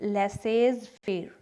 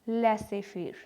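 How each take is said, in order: First: A z sound is said before faire. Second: No z sound is said before faire. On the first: The speaker calls it wrong. "Not लेसेज फेर" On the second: The speaker calls it right. "ये बोला जाएगा लेसे फेर"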